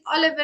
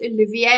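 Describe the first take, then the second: First: The name is said as English Oliver. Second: The name is said as French Olivier. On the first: The speaker calls it wrong. "I said Oliver" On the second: The speaker calls it right. "it's French. You pronounce it Olivier"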